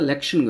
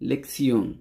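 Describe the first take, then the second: First: It is said the English way, with sh. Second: It is said the German way, with ts. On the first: The speaker calls it wrong. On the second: The speaker calls it right.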